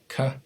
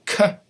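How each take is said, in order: First: Said in the usual way. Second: K popped as a sharp ejective. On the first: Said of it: "So you have ka". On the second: Shown as a demonstration. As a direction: spit out the k with a burst. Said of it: "So you have ka and k".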